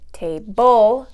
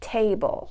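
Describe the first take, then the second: First: The stress is on the second syllable. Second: The stress is on the first syllable. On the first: The speaker calls it wrong. "we don't say table" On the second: The speaker calls it right. "we say table. So the stress... is coming on that first syllable"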